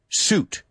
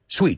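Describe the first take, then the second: First: It has no glide and an 'oo' vowel. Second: It has a w-glide and an 'ee' vowel. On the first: The speaker calls it right. "Olvídate la I. Que desaparezca" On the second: The speaker calls it wrong. "Lo que me desconcierta es cómo lo pronunciáis"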